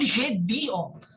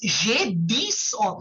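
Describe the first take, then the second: First: The x is silent, with no link to the vowel. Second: The x sound links into the following vowel. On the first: The speaker calls it wrong. "You just said J di on" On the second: The speaker calls it right. "you will join the X with the A"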